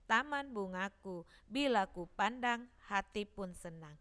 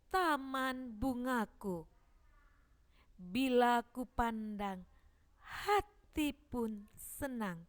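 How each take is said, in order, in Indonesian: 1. Kata-katanya diucapkan dengan cepat dan terburu-buru. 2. Kata-katanya diucapkan dengan jelas dan tidak terburu-buru. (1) "Jangan membacanya" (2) "harus jelas dan tidak terburu-buru"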